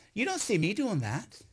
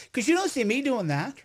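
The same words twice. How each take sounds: First: "don't" weighted and rising, the rest a little quieter; stress on don't. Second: 'cause you don't see me doing that, lifted on "you" with a rising end; pressing the point. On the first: Pushing back at critics, "don't" stressed. Repeats the line to press it. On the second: Pushing back at critics, "you" lifted and rising. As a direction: lean on "you" and let the line rise. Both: Acted.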